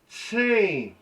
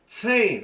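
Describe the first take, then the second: First: "Sane" said with a sharp ts hiss at the start, then a nasal vowel; Kiowa ts sound. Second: "Sane" said louder, with a sharp ts hiss at the start and a nasal vowel; Kiowa ts sound. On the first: Teacher demonstrating a Kiowa word, crisp ts onset. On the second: Teacher repeating the word, louder ts onset. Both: Shown as a demonstration. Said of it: "that T S".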